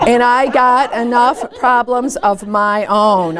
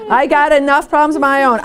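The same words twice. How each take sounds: First: Laughing through it, slowly; slow, amused, half-laughing complaint. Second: Said in the usual way. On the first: Shown as a demonstration. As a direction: chuckle the words out slowly.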